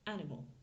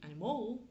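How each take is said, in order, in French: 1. L'accent tombe sur la première syllabe. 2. Toutes les syllabes ont à peu près le même accent. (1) "l'accent tonique est sur ma première syllabe" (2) "Si je dis animal, ça va être un petit peu plus compliqué pour eux à comprendre"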